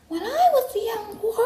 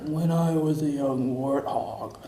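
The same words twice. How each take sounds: First: It is said in a high register. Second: It is said in a low register.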